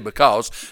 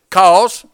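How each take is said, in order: First: The word is said in full, two syllables. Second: The word is shortened to one syllable. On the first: "We don't say because" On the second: "We shorten it in East Tennessee"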